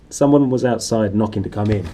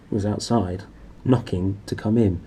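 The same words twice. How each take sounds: First: Louder, weighty retake for suspense; dramatic tension. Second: Said in the usual way. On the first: Shown as a demonstration. Reader redoing the line to build dramatic tension. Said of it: "Dramatic tension". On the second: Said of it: "Well, I muffed that last line".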